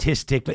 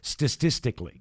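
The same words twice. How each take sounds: First: The word has only its normal s sounds. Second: The word has too many s sounds. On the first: The speaker calls it right. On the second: The speaker calls it wrong.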